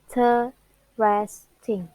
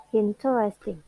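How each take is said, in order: First: Interesting slowly split as in, te, res, ting; Interesting in four slow, separated beats, in-te-res-ting; broken into syllables. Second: Said in the usual way. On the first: Shown as a demonstration. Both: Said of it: "it word has four syllables".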